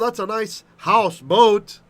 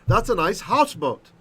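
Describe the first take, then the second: First: Both house and boat carry a stress. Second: Only one part of houseboat carries a stress. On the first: The speaker calls it wrong. "We don't say" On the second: The speaker calls it right. "We just have one accent"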